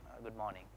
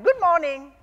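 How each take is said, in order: First: It is said in a grumpy way. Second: It is said in a cheerful way.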